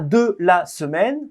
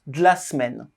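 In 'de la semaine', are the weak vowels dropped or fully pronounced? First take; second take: fully pronounced; dropped. First: Every syllable is fully pronounced. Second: The weak vowels are dropped and squeezed together. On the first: The speaker calls it wrong. "On ne prononce pas" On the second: The speaker calls it right. "mais on prononce"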